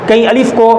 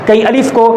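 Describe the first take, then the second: The two takes are said the same way.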